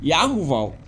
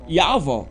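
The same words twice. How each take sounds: First: Yahuwah with hu inserted, Ya-hu-vau; rejected pronunciation. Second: Yahweh said as Ya-vau, two syllables; true-name pronunciation. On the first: Teacher showing what the name is not, rejected pronunciation. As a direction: say Yahuwah in three parts, Ya-hu-vau. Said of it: "but not". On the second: Teacher giving the name of the father, correct pronunciation. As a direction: say Yahweh without any hu, Ya-vau. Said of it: "That's the name of the father". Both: Shown as a demonstration.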